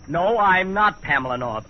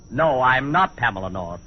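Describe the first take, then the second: First: It is said in a high falsetto voice. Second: It is said in his normal voice.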